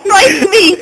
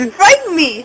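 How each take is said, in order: First: Crying with laughter; laughing. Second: Said in the usual way. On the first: Real, not acted. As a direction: plead through tears of laughter. Trying to stop hiccups.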